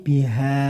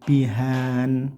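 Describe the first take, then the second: First: The word ends on a long vowel, no n. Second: The word ends with an added n sound. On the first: The speaker calls it right. "cukup panjangkan satu alif atau dua harokat tanpa n lagi" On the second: The speaker calls it wrong. "ini yang sering salah pembacanya seperti kayak gini"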